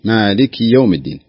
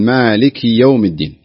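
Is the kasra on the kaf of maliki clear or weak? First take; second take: clear; clear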